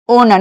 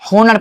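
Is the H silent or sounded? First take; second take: silent; sounded. First: The word begins without an H sound. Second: The word begins with an H sound. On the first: The speaker calls it right. "ओनर नहीं कि होनर पढ़ेंगे" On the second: The speaker calls it wrong. "नहीं कि होनर पढ़ेंगे"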